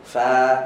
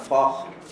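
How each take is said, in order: First: The syllable is said thin, lips toward a smile. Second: The syllable is said thick and heavy. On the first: The speaker calls it right. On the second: The speaker calls it wrong. "kalau fakh, fa jadi tebal"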